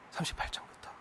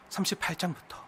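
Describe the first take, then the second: First: 삼십팔 장부터 whispered, much softer, unvoiced. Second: Said in the usual way. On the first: Shown as a demonstration. Preacher repeating the chapter number, whispered. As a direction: breathe 삼십팔 장부터 as an aside. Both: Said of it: "repeat whispered".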